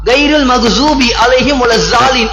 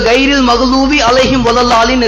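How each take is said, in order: First: The special consonant sounds like a Z. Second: The special consonant sounds like an L. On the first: The speaker calls it wrong. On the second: The speaker calls it right.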